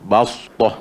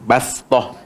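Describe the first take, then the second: First: The s is emphatic, with the tongue back raised. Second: The s is a plain, crisp hiss. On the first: "kalau sad pula bas. Kena naik ke naikkan lagi lidah belakang tu" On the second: "kalau baca sin tu kena bagi bunyi sin kuat sikit eh"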